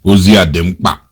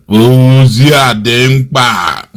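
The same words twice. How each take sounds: First: Said in the usual way. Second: Slow drawn-out quote. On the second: Retold or imitated. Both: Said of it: "He's imitating Nnamdi Kanu".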